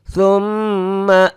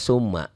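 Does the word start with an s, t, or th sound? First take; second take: th; s. First: The first sound is a soft th, tongue on teeth. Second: The first sound is a plain hissing s. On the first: The speaker calls it right. "sa ujung lidah ... Ujung lidah ke ujung gigi" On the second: The speaker calls it wrong. "Banyak orang yang baca summa"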